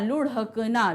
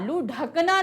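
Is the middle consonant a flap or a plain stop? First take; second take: flap; plain stop. First: The middle consonant is a tongue flap. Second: The middle consonant is a plain stop. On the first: The speaker calls it right. "देखो ढ के साथ क्या आपको बिंदी निकल रही है" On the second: The speaker calls it wrong. "नहीं होता"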